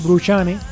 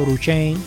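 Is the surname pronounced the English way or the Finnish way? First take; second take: Finnish; English. First: The name is pronounced the Finnish way. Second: The name is pronounced the English way. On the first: This is how the name is actually said. The speaker calls it right. "pero ahora es Bruchane" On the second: This is how it would be said if the name were English. The speaker calls it wrong. "Si fuera inglés seguro era Bruchane"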